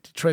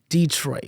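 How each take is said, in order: First: The opening D is said plainly, without extra emphasis. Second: The opening D is said with strong emphasis. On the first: This is how locals say it. "I always said Detroit" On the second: This is how outsiders say it. "people do tend to want to emphasize that D"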